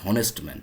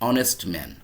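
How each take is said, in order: First: The phrase begins with an h sound. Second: The phrase begins without an h sound. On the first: The speaker calls it wrong. "বলতেছি না হনেস্ট man" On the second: The speaker calls it right. "অনেস্ট ম্যানকে আমি কিন্তু বলতেছি না হনেস্ট man"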